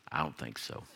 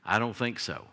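First: Put-on much lower, much softer old-man brush-off; teasing dismissal, low and soft; typical old man answer. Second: Said in the usual way. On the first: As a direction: drop way down and wave it off like a grumpy grandpa. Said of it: "like a typical old man answer". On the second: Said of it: "they would watch it and say".

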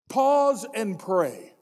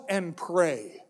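First: Slow, deliberate "Pause and pray"; slow emphasis. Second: Said in the usual way. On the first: Acted. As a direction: spell out "Pause and pray" word by word. Step repeated slowly.

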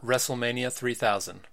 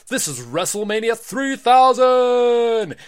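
First: Said in the usual way. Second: High, loud, slow arena announcer call; announcer shout. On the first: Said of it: "title read plainly". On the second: Acted. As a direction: stretch it out for the crowd. Boy announces the show.

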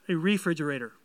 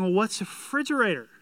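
First: Refrigerator with its full re syllable; careful full refrigerator, re included; corrected pronunciation. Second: Refrigerator said as frigerator, dropping the re; Southern frigerator, first syllable dropped; Southern pronunciation. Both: Shown as a demonstration. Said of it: "Sorry, I'm from the South".

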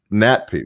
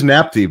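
First: "natpi" said with t before p; corrected pronunciation. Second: "napti" said with p before t; common mispronunciation. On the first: Co-host checking the name, "natpi" carefully as nat-pee. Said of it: "but it's nat". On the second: Quoting how everybody says it, "napti" as nap-tee. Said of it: "everybody says napti". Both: Shown as a demonstration.

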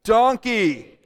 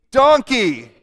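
First: Group call-out. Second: "Donkey." much louder and higher; louder call-out. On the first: Pastor leads congregation chanting donkey, loud. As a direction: say "Donkey." louder, on the count. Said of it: "let's say it together on three". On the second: Pastor leads second chant, much louder. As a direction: bellow it with the whole room. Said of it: "We could do that again". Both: Shown as a demonstration.

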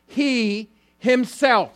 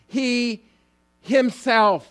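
First: "he himself" said slowly, every word weighted; emphatic stress. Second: "he" set apart, then "himself" loud and high; emphatic stress. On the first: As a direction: lean hard on "himself", slow and high. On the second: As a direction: punch "himself" after a pause. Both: Shown as a demonstration. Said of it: "that's emphatic".

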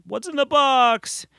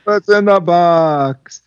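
First: Hammed-up movie quote. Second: High, slow, dramatic; movie quote. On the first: Famous movie line quoted. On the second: Retold or imitated. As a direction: draw out the famous line. Echoes movie line.

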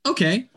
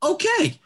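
First: Higher-pitched, uncertain okay; taken-aback reaction. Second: Very high, squeaked okay; startled reaction. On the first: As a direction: react with mild startled surprise. Teller's stunned reply to a gunshot. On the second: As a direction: exaggerate the alarmed surprise in a high voice. Reaction to a second gunshot. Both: Retold or imitated.

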